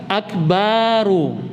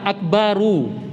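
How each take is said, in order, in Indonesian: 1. Vokal setelah b dipanjangkan. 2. Vokal setelah b pendek.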